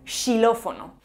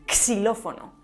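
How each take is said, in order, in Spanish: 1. La palabra empieza con un sonido sh. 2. La palabra empieza con un sonido ks. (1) "o incluso como sh" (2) "además de como x o s"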